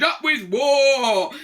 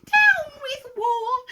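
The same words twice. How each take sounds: First: Chanted, loud war cry with long vowels; chanted, higher, louder and drawn out; chanted shout. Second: Slow falsetto protest chant; very high, stretched dinosaur call; high hoot. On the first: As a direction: shout a slow, stretched rallying chant. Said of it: "And they shouted". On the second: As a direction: hoot it out on long, high vowels. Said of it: "and he hooted". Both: A narrator's reading.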